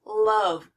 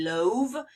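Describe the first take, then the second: First: Love said with a short U, "luv"; right pronunciation. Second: Love said with a long O, like "lohv"; wrong pronunciation. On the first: Teacher giving her class the real short-U love. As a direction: say love with a quick short "uh" vowel. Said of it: "The short U sound". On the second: Teacher showing her class the rule-following love, "lohv". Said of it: "but it's not". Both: Shown as a demonstration.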